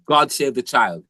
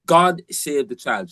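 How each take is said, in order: First: Said in the usual way. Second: Put-on "God Save the Child" said slowly, each word weighted; slow emphatic repeat. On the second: Shown as a demonstration. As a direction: spell the title out slowly for emphasis.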